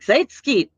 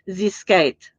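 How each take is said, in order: First: The start sounds like 'Zeitgeist'. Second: The start does not sound like 'Zeitgeist'. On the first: The speaker calls it wrong. "It it sounded like I just called him the Zeit Zeitgeist" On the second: The speaker calls it right. "instead of calling him Zskite"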